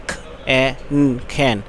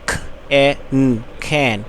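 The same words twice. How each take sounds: The two takes are said the same way.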